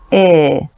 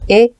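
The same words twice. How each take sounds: First: The vowel is long and lower. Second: The vowel is short and higher. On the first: "lower and longer" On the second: "meaning shorter"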